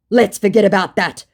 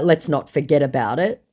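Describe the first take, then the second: First: Raised, louder put-on reply; scammer's dodge. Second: Said in the usual way. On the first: Scammer wanting the chat to vanish, mildly mocked insistence. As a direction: lightly voice a bluffer brushing it off.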